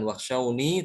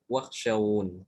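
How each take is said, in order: First: Wakhshawni ending on an open long i; wrong ending sounded. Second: Wakhshawun falling, closed on n; correct stop, no ya. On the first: Teacher showing what to avoid, final i sounded. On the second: Teacher showing the right stop, final n closed. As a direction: hold wakhshawun and drop the i. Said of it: "Tanpa ya". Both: Shown as a demonstration.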